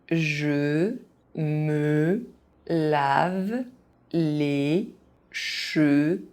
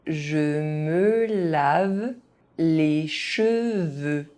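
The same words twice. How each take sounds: First: It is said very slowly, syllable by syllable. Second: It is said at an ordinary speaking pace. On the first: Each syllable can be followed. "very slowly" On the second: This is the pace learners should use. "at a normal pace"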